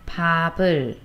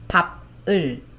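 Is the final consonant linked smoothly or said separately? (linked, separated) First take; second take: linked; separated. First: The final consonant links smoothly into the vowel. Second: The syllables are said separately with a break. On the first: The speaker calls it right. "We pronounce softly like" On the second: The speaker calls it wrong. "don't pronounce this separately like"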